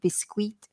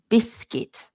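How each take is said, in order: First: The ending is sounded like 'kwee' or 'kwit'. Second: The ending is sounded as a plain short 'kit'. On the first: The speaker calls it wrong. "which I think is like a French word as well and a Spanish word as well" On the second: The speaker calls it right. "So we say biscuit. So just ignore the U"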